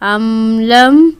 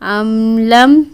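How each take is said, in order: Both takes have the same delivery.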